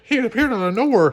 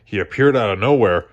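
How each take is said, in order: First: "He appeared out of nowhere" pitched much higher, as the clerk. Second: Said in the usual way. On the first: Shown as a demonstration.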